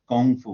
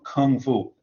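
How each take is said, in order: First: The first word starts with a G sound. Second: The first word starts with a hard K sound. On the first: This is a Chinese-style pronunciation used in English. The speaker calls it wrong. "they use a kind of Chinese pronunciation. They'll say Gong Fu" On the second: This is the English pronunciation. The speaker calls it right. "that's how it's pronounced in English. It's pronounced Kung"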